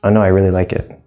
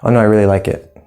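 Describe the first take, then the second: No difference in how they are said.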